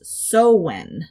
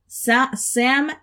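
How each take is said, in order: First: It is said like sow-en, without the m. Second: It is said as spelled, like sam-hain. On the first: The speaker calls it right. "In Gaelic, it's pronounced Sowen" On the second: The speaker calls it wrong. "Samhain is how I would pronounce it"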